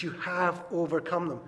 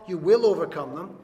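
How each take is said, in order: First: "have" leaned on firmly; stress on HAVE. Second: "will" punched loud; stress on WILL. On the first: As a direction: put the weight on "have", as the corrected version. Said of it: "It's "you have overcome them". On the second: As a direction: hit the word "will" hard, as the version being rejected. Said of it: "It's not "you will overcome them". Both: Shown as a demonstration.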